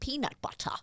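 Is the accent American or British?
British. It is said in a British accent. The speaker calls it wrong. "you're pronouncing it peanut butter"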